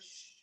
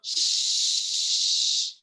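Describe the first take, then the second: First: The shush is soft and weak. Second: The shush is loud and forceful.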